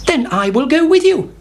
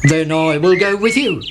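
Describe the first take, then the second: First: High, keen hen; much higher hen voice; eager hen. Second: Lightly voiced cockerel; a steady cockerel joins; plain cockerel. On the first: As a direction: join in at once. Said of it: "said Henny Penny". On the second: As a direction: close to narrator voice. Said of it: "said Cocky Locky". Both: A narrator's reading.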